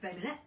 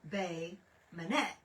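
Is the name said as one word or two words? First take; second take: one word; two words. First: The name is run together as one word. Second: The name is said as two separate words. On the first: The speaker calls it wrong. "I thought it was all one word. It was just Bay Minette" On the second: The speaker calls it right. "and it's Bay Minette"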